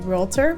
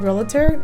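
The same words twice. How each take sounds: First: No extra vowel sound comes before the t. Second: An extra vowel sound comes before the t. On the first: The speaker calls it right. "it's really realtor" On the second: The speaker calls it wrong. "I'm going to have to change the habit of saying realtor"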